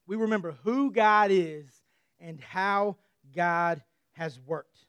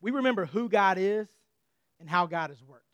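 First: "who" stressed, "and how God has worked" drawn out slowly; slow down and lean on "worked"; slowed, weighty repeat of "how God has worked"; slow emphatic repeat. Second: Said in the usual way. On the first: Shown as a demonstration. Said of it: "repeated line, slow ending". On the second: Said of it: "repeated line, different emphasis".

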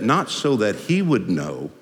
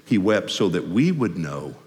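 First: Slow, with weight on "he"; "he" picked out for contrast; stress on HE. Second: Slow, with "we" lifted out; "we" picked out for contrast; stress on WE. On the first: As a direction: lean on "he" as the mistaken subject. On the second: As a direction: lean on "we" to correct the point. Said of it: "See the difference?". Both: Shown as a demonstration.

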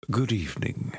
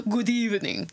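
First: A hint of an old-world count; Victorian vampire voice. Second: Hammed-up cartoon vampire greeting; cartoony vampire voice. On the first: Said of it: "Say good evening in a Victorian era vampire voice". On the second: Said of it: "mine was way too cartoony".

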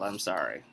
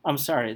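First: Lower, much softer sorry; soft apology. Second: Said in the usual way. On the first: Real, not acted. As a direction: let the apology fade to almost nothing. Apology after yelling.

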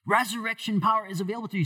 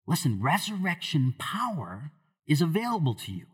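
First: Higher, louder and fast, pressing the point; building emphasis. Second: Said in the usual way. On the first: Acted. Preacher to the congregation, repeating the promise louder and faster. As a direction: drive the promise home with rising force. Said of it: "repeats the line with force". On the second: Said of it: "repeats the line, then builds".

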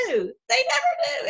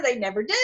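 First: Much higher, slow, laughing through the words. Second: Said in the usual way. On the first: Real, not acted. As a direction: crack up while saying it. Laughing at the critics. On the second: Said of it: "And they never".

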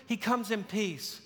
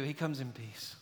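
First: Said in the usual way. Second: Dropped to a hush, much softer and lower; hushed answer. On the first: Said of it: "What does he do?". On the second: Shown as a demonstration. Preacher answering his own question in a hush. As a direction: let the answer fall soft and low. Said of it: "But what does he do?".

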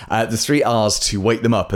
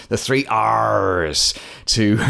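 First: Said in the usual way. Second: Slow, growling pirate drawl on the three R's. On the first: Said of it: "I'll never do, ever do that again". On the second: Pretend. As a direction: say it like a hammy pirate. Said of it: "I could say it like a pirate".

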